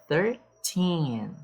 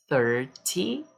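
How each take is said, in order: First: Put-on thirTEEN, stress on TEEN; stress on the end. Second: THIRty, stress on THIR; stress on the start. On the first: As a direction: hit the last syllable of thirteen. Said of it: "O foco aqui é na última sílaba". (ênfase na sílaba TEEN) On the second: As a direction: hit the first syllable of Thirty. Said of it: "o foco aqui é na primeira sílaba". (ênfase na sílaba THIR) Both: Shown as a demonstration.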